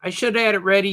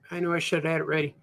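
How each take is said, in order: First: Said in the usual way. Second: Fast, softer aside; quick sheepish mumble to himself; rushed mutter. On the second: Real, not acted. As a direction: rattle it off under your breath.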